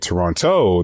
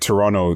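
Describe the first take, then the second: First: The second t is pronounced. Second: The second t is dropped. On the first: The speaker is not from the city. "people know you're not from Toronto" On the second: The speaker is from the city. "that means you're from Toronto"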